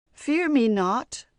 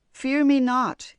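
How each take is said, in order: First: Slow, loud, rising monster voice; a great lake monster calming her, slow and loud. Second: Slow, loud monster, falling on me; a calm lake monster, slow and loud. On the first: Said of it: "the voice of the Taniwha". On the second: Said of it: "he repeated". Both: A narrator's reading.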